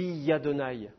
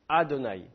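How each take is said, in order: First: The word begins with a 'ya' sound. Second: The word begins directly with a vowel. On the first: The speaker calls it wrong. "Pourquoi tu dis Yadonai?" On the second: The speaker calls it right. "Il n'y a pas de Ya au début"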